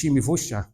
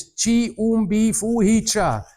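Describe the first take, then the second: First: "Shimbifusha" quick and run together with sh-sounds; everyday local pronunciation. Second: "Chi Umbi Fuhicha" slow and high, syllable by syllable; spelled-out pronunciation. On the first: Villager correcting the foreigner, "Shimbifusha" as one hushing local word. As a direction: slur the written parts into one word, "Shimbifusha". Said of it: "nobody speaks like that". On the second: Insisting to villagers on the spelling, "Chi Umbi Fuhicha" sounded out slowly. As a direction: sound out "Chi Umbi Fuhicha" as written, each part separate. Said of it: "when you write it".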